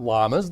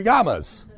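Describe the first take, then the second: First: "llamas" with a plain L sound; "llamas" starting on an English L; English L pronunciation. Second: "llamas" with a Y sound; "llamas" starting like "ya"; Spanish double-L pronunciation. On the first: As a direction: say "llamas" as LAH-muhz. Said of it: "two L's are not pronounced like an L". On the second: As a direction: say "llamas" as YAH-muhz. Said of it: "it's pronounced like a ya". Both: Shown as a demonstration.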